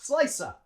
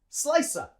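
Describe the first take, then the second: The two takes are said the same way.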